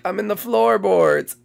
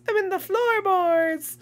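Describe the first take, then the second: First: Said in the usual way. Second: High, slow teasing call; sing-song taunt. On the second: Pretend. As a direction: tease them in a high, drawn-out singsong. Teasing seekers from hiding spot.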